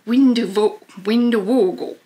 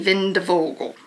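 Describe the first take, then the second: First: The name begins with a W sound. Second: The name begins with a V sound.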